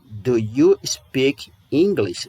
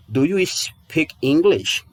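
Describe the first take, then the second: First: "Do you speak English?" again slowly, in an English voice; slow repeat. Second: "Do you speak English?" slowly, stress on you; slow example question. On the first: Teacher repeats the question slowly in English-sounding voice. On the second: Teacher models the English question slowly for students. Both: Shown as a demonstration. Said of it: "Por exemplo".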